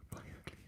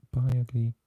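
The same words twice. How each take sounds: First: Bye, ugly repeated in a soft whisper; hushed, breathy second try at Bye, ugly; whispered retry. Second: Bye, ugly called out louder and higher; bright, loud attempt at Bye, ugly; clumsy foreign phrase. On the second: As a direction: sing out Bye, ugly like a cheery sign-off. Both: Shown as a demonstration. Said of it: "That sounds terrible".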